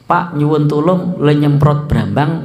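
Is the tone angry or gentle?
gentle. It is said in a calm, gentle tone. The writer means it as a polite request.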